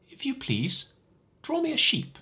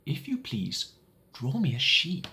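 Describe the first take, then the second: First: Put-on high, small child's voice asking politely; a little boy's odd, earnest request; high little prince voice, gentle plea. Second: Little prince voice, words drawn out slowly; higher child's voice, very slowly and seriously; slow, grave request. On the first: Odd little voice wakes pilot. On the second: Acted. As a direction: ask as if it matters enormously. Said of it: "he repeated very slowly".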